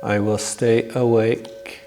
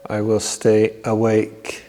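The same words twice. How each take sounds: The two takes are said the same way.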